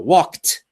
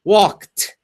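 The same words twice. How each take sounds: First: The final t is said strongly and clearly. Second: The final t is said strongly and clearly.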